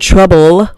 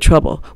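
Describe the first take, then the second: First: The final L is clearly pronounced. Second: The final L is swallowed.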